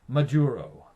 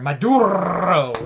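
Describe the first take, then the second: First: The name is said with an English accent. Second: The name is said with a Spanish accent.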